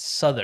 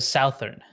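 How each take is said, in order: First: The first vowel differs from the vowel in 'south'. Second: The first vowel sounds like the vowel in 'south'. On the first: "it's Southern" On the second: "instead of Southern"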